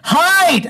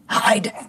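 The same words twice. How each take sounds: First: The word is said loudly. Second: The word is said at normal volume.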